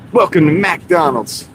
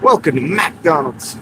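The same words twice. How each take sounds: First: It is said in a neutral tone. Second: It is said in an angry tone.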